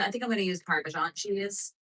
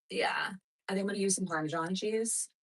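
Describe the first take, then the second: First: Said in the usual way. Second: Whispered to herself; whispering. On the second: Real, not acted. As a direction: breathe it out as a private aside. Repeats choice under breath.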